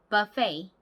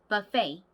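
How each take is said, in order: The two takes are said the same way.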